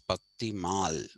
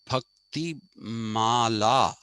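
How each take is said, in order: First: The final 'a' vowel is dropped. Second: The final 'a' vowel is pronounced. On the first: "the North Indians do not use the A at the end" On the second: "this is Bhakti Mala actually"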